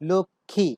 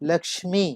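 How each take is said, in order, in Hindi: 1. म की ध्वनि का उच्चारण नहीं होता। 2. म की ध्वनि का उच्चारण होता है। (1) "শব্দটির উচ্চারণ হচ্ছে লক্ষ্মী" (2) "সংস্কৃতে এই শব্দটির উচ্চারণ করা হয় লক্ষ্মী"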